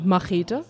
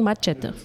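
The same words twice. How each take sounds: First: It is pronounced the German way. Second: It is pronounced the Spanish way.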